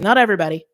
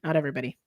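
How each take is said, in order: First: Firm, louder insistence; forceful. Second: Softer, lower, backing off the force; toned-down restatement. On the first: Tarot reader qualifying a reading for viewers, forceful. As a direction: say it with force, punching it out. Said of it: "I said that very forcefully". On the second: Tarot reader softening a forceful caveat, toned down. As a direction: say it gently, as a quiet correction. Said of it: "I know I said that very forcefully". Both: Real, not acted.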